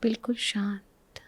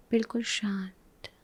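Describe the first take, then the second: No difference in how they are said.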